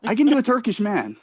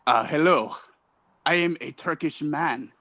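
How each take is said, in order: First: Said in the usual way. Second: Stiff, halting attempt at Turkish accent; lightly done, deadpan Turkish-man accent; bad Turkish accent. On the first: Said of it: "Can you do a Turkish man?". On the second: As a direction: introduce yourself in a faint Turkish accent.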